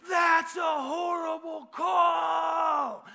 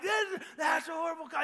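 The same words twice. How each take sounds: First: Long, drawn-out high bellow; as loud as possible. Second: High-pitched heckle from the stands; yelling. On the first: Fan shouting at the referee in small gym, as loud as possible. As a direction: holler it slowly at full volume. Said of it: "as loud as I could". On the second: Caught up in the game booing the referees, yelling. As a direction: yell along with a booing crowd. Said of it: "and I'm yelling". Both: Retold or imitated.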